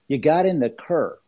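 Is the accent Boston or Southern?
Boston. It is said in a Boston accent. "I know you're from Boston area, but you said you got in the Kerr"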